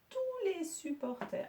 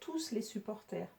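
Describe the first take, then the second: First: The final s of tous is silent. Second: The final s of tous is pronounced. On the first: The speaker calls it right. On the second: The speaker calls it wrong.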